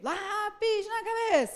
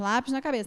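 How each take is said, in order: First: It is said in an energetic, game-like way. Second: It is said in a plain, unengaging way. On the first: The child is drawn into the game. The speaker calls it right. "com ele tem que ser; esse tom, que é o tom que ele engaja" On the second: The child will not engage with it. The speaker calls it wrong. "Não pode ser, vamos lá, gente"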